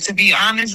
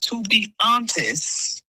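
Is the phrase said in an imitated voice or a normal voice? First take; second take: normal; imitated. First: It is said in the speaker's normal voice. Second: It is said in an imitated, put-on voice.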